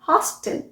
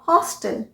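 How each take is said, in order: First: It is said with an American pronunciation. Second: The same.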